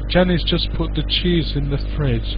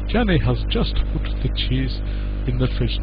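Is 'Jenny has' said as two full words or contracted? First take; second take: contracted; full words. First: Jenny has is contracted and linked to just. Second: Jenny has is said as two full words. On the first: The speaker calls it right. "This is all syllables connecting together" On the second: The speaker calls it wrong. "we don't normally speak like that"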